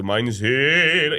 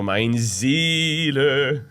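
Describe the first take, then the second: First: Mein Seele slow, vowels opened to spin; open spinning vowel. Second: Mein Seele very slow, vowels shut; closed German vowels. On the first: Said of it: "open it so that it can spin". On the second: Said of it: "it's so like, like this". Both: Shown as a demonstration.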